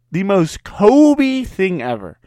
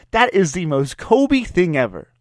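First: "The most Kobe thing ever" slowed and higher, leaning on "Kobe"; slow emphatic repeat. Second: Said in the usual way. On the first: Real, not acted. Repeating the jab at Kobe with drawn-out stress on "Kobe".

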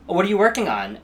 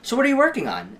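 First: Bright, interested ask, pitched higher; genuinely curious. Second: Much higher, louder, loaded ask; pointed probing. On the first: To a theater friend, curious and friendly. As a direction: sound sincerely curious about their work. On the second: Sizing up a fellow actor, pointed and loaded. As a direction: press them on their career status. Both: Retold or imitated. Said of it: "such a subtle difference".

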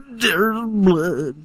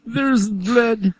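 First: Put-on hammy German accent, again higher. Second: Put-on hammy German accent. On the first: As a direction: try the German accent once more. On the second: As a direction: say it like a German scientist. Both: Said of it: "think of the German accent".

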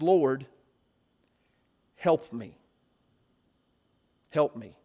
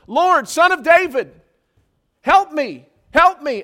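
First: Low, subdued plea with long pauses; begging. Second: Loud, high desperate cries for help; screaming plea. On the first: Woman fallen before Jesus begs him, low humble plea. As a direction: beg humbly, well below your usual pitch. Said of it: "And she begs him". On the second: Woman following the disciples calls after Jesus, screaming plea. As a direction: call out urgently after someone walking away. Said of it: "she's screaming after these guys". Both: Acted.

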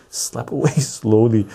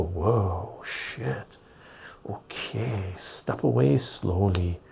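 First: Laughing. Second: Mock muttering to self. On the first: Retold or imitated. Host repeats his own joke to viewers and laughs. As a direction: laugh through the warning. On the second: Backing away from someone.

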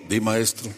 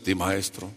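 First: Said in the usual way. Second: Mock religious voice. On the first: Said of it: "A ver, ¿cómo hablan los religiosos?". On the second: Shown as a demonstration. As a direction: lower and softer, a pious sanctimonious tone. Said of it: "¿Cómo hablan los religiosos?".

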